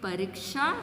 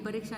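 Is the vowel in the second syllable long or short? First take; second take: long; short. First: The second syllable has a long vowel. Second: The second syllable has a short vowel. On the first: The speaker calls it right. "दीर्घ आनी चाहिए" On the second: The speaker calls it wrong. "परीक्षा नहीं"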